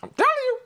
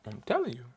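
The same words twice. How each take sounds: First: High, loud burst of hype; hyped shout. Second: Quiet aside. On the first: Hyping up his viewers, loud excited shout. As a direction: shout it out, fired up. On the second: After hyping his viewers, a quiet aside. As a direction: drop it down, almost to yourself. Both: Real, not acted.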